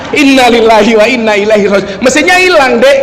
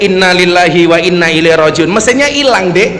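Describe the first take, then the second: First: Imitating a loud, dismayed cry that rises; mock yell. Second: Imitating a dismayed cry, only mildly raised; half-hearted retold outcry; mild mock yell. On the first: Madurese friend wails to his companion about the missing engine, mock yell. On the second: Madurese friend finds the car's engine gone, mild mock yell. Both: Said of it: "Langsung dia teriak".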